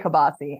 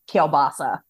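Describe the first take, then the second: First: The L is dropped, ending in an 'ee' sound. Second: The L is pronounced, ending in an 'uh' sound. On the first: This is a local Pittsburgh way of saying it. "I say kibasi" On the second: This is how most people say it. "everybody else pronounces it kielbasa"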